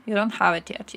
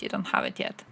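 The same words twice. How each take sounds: First: Said in the usual way. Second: Hushed breathy whisper of the repeat. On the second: Shown as a demonstration. Whispering the line again to chat. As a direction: whisper it like a secret aside.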